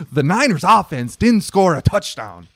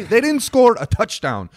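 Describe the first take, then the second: First: Didn't rising and loud; stress on didn't. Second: Score hit high and hard, emphatic repeat; stress on score, higher. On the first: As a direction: punch the word didn't firmly. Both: Real, not acted.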